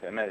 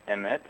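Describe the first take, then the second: First: EMET said as e-MET, weight on the last syllable; stress on second syllable. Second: EMET with the weight on its first syllable, E-met; stress on first syllable. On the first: Speaker corrects his own Hebrew example, second-syllable stress. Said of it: "with the accent on the second syllable". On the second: Speaker demonstrates a Hebrew word to listeners, first-syllable stress. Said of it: "with the accent on the first syllable". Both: Shown as a demonstration.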